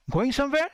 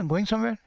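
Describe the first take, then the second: First: "going somewhere" higher, rising sharply at the end; "going somewhere" as a question, climbing on somewhere; questioning intonation. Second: "going somewhere" said level, like a statement; "going somewhere" without any questioning lift; wrong intonation. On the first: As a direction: ask "going somewhere" with a clear upward lift. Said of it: "तो ये intonation हो गया आवाज़ का". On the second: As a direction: run through "going somewhere" with no rise at the end. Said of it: "ऐसे ना". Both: Shown as a demonstration.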